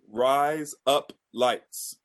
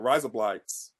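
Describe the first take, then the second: First: It is said slowly, word by word. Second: It is said fast, words run together.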